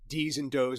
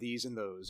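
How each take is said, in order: First: The words begin with a hard d sound. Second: The words begin with a soft th sound. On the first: This is how a tough Brooklyn character talks. "everyone D's and does" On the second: This is the standard way to say it. "instead of these and those"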